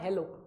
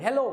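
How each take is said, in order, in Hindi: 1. यह शब्द सामान्य आवाज़ में कहा गया है। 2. यह शब्द बहुत तेज़ आवाज़ में कहा गया है। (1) "अब मैं आपको हेलो बोल रहा हूँ" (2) "और जोर से बोलूं हेलो"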